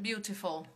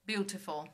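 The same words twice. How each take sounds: Both takes have the same delivery.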